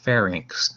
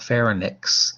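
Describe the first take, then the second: First: It sounds like 'fair' followed by 'inks'. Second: It does not end with an 'inks' sound. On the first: The speaker calls it right. "like the state fair, and then inks" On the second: The speaker calls it wrong. "not pharynx"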